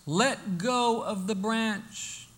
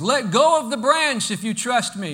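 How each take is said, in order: First: Very slow, measured command; the Lord instructing. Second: Louder, raised, insistent command; the Lord insisting. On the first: The Lord tells the hanging man, slow and measured. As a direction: draw each word out, unhurried. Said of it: "the Lord says". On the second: The Lord repeats the order to the hanging man, louder and insistent. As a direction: project it firmly up and out. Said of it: "again, the Lord says". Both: Acted.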